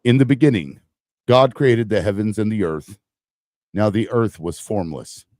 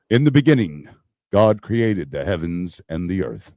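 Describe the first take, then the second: First: Louder, booming God reading. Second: Solemn Bible reading. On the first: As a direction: boom it out like God from the sky. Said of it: "so I can do my God voice". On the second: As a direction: read it like holy scripture. Reads Genesis solemnly on air. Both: Shown as a demonstration.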